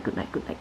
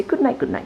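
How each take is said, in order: First: Softer, whispered good nights; whispered goodnight. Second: Animals saying goodnight. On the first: Reading a bedtime book, animals whispering goodnight. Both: A narrator's reading. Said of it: "all the animals say".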